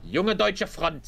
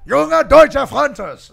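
First: Junge Deutsche Front 说成德语音，Junge 读 yoong-eh，Deutsche 读 doy-tcheh; 把 Junge Deutsche Front 用德语念出来给对方示范; German pronunciation. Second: Junge Deutsche Fronters 大声喊出，声调高，拖得很慢; 照着念，把 Junge Deutsche Fronters 喊出来; shouted repeat. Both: Shown as a demonstration. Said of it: "Say it".

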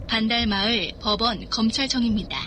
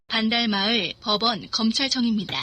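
Both takes have the same delivery.

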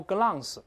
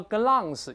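First: "glance" with a Chinese-style ang nasal ending, the wrong way; wrong vowel demo. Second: "glance" with an open ah and the tongue root kept still; correct British vowel. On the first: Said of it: "但不要读glance". (错误示范：glance读成ang) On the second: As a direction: say "glance" with a long ah, no ang. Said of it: "你要读glance". (正确英式发音glance) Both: Shown as a demonstration.

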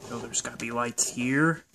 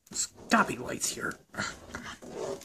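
First: Said in the usual way. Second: Breathy whisper to himself. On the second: Acted. Searching a dark room, whispering to himself. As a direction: hush it while searching.

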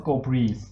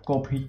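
First: โกพรีส said with a long ee and a final s, พรีส; right reading. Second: โกพริก said with the short vowel of พริก; the wrong reading โกพริก, like the word for chili. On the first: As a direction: read it as โกพรีส, not พริก. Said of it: "มาอ่านว่า โกพรีส นะฮะ". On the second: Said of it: "ไม่ได้อ่านว่า พริกนะ". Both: Shown as a demonstration.

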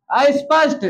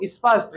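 First: "अस्पष्ट" as ais-pasht, added opening vowel; wrong pronunciation. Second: "स्पष्ट" as is-pasht, only a light i; correct pronunciation. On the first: Teacher shows how people say "अस्पष्ट", ais-pasht. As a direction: open "अस्पष्ट" on a gliding ai. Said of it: "नहीं, क्या होता है". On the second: Teacher gives the real "स्पष्ट", said is-pasht, falling. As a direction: keep the start of "स्पष्ट" brief. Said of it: "जबकि real में क्या है वो". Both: Shown as a demonstration.

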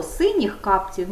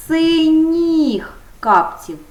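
First: Said in the usual way. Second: Slow, higher and louder; drawn out, emphasising the ending; slow model answer. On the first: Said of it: "Немає чого". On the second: Shown as a demonstration. Teacher stressing the ending for the class, slow and loud. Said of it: "на м'який приголосний".

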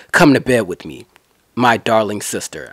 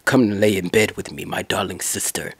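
First: Sly seducer. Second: Low, much softer vampire croon; Count Dracula voice. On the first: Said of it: "that's the way I'ma pretend". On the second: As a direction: purr it low like a hammed-up Dracula. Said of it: "sounds like Count Dracula". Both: Retold or imitated.

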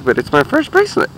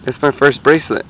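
First: High, rising delight on "bracelet"; excited. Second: Said in the usual way. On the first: Real, not acted. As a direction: squeal it with real joy. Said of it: "I'm excited".

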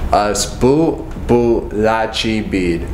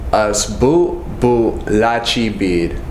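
Both takes have the same delivery.

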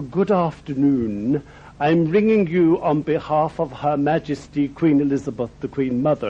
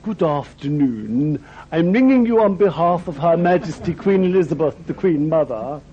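First: A hint of a grand royal secretary, measured and proper; very posh lady. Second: A hint of a grand royal secretary, patiently repeating herself; very posh lady. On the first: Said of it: "this very posh lady said". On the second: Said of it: "and she said".

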